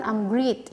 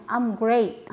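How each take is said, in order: First: I'm great with great as greet; wrong pronunciation. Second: I'm great with great said as grate; correct pronunciation. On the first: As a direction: learner mispronunciation of great as greet. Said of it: "Jadi bukan". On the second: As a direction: correct greet-free great. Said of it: "tapi kita bilangnya". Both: Shown as a demonstration.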